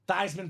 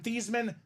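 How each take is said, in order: First: The name rhymes with Heisman. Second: The name does not rhyme with Heisman. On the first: This way was chosen for a campaign slogan. "so we can campaign Theismann for the Heisman" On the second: This is the family's original way of saying the name. "change your name from Thiesman"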